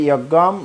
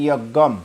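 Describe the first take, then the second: No difference in how they are said.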